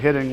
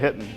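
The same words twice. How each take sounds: First: The word is said with its full standard ending. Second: The word is said Canadian-style, ending cut short. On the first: "Instead of say hitting" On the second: "we say hitting"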